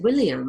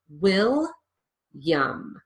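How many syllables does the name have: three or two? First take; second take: three; two. First: All three syllables are pronounced fully. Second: The middle syllable is dropped, giving two syllables. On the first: "if I were speaking with an English accent, that's the way I would pronounce it" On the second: "I lose that middle syllable completely"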